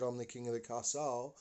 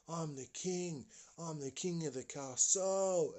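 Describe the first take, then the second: First: Said in the usual way. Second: Put-on boastful child king. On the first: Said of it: "just as he said". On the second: Boy atop the cubby house, crowing proudly. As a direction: crow it in a higher voice. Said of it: "he's standing up and he's going".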